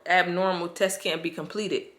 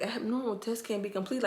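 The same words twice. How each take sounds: First: Said in the usual way. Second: Higher, puzzled mock read of "Abnormal, test can't be completed"; baffled rereading. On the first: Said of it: "and they said". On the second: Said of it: "So I'm looking like".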